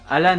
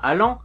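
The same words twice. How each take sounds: First: The name is pronounced the English way. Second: The name is pronounced the French way. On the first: "à sonorité anglaise" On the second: "prononcés le plus à la française possible"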